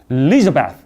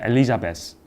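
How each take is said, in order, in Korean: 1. 강세는 두 번째 음절에 강하게 옵니다. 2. 모든 음절을 강세 없이 고르게 발음합니다. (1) "거기에 강세가 있어야 자기 이름처럼 들린다고요" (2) "우리는 엘리자베스 여왕님이라고 하잖아요"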